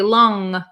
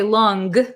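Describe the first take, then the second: First: The word ends in a nasal sound, no G. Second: The word ends with a hard G sound. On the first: The speaker calls it right. "but we say long" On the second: The speaker calls it wrong. "We don't say long"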